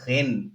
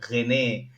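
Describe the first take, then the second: First: The name ends without an extra final vowel. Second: The name ends with an extra final vowel. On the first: The speaker calls it right. "it's called Rennes" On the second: The speaker calls it wrong. "not Rene. I used to think it's it's Rene because I with an E"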